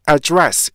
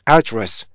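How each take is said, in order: First: The stress is on the second syllable. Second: The stress is on the first syllable. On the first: It is used as a verb. "두 번째 음절에 강사가 있는 경우 동사로 쓰일 경우" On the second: It is used as a noun. "맨 첫 음절에 강사가 있을 때 이런 거고요"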